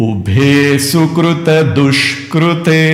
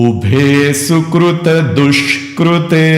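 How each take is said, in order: The two takes are said the same way.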